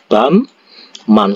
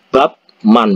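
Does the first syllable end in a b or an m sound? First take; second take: m; b. First: The first syllable ends in an m sound. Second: The first syllable ends in a b sound. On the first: The speaker calls it right. "Bacanya itu bamman. ... Bamman seperti ini" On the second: The speaker calls it wrong. "kalau kalian yang baca itu kan bab man"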